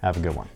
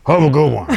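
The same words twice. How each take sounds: First: Said in the usual way. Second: "Have a good one" pushed out louder, huffing with a laugh; mock out of breath. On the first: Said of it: "Or should I say". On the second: Shown as a demonstration. Host signing off the video, faking out of breath. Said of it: "I can't even do it out of breath".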